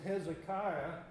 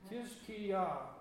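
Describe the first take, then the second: First: The name begins with an H sound. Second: The name begins with a K sound. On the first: This is the usual English form of the name. "in English we pronounce it Hezekiah" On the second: This is the original Hebrew form of the name. "as best I can pronounce his name is Kiz-Ki-Yah"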